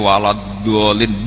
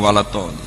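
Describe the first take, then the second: First: The word starts with a soft d sound. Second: The word starts with a hard t sound. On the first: This is how the teacher recites it. The speaker calls it right. "Mbok entek kiyaine walad dolin nduk mboten saged" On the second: This is how students from that region recite it. The speaker calls it wrong. "Tetap walad tolin"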